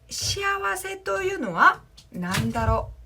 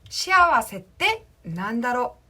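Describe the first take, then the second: First: The phrase is said in its full, longer form. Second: The phrase is said in a short, contracted form.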